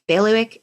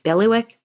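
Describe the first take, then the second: First: Bailiwick said as bay-lee-wick, a second careful try; another try at the word. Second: Bailiwick said as pelly-wick, rising, unsure; trying the word out. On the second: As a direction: test Bailiwick as pelly-wick with a questioning rise. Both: Shown as a demonstration. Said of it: "Is that a word?".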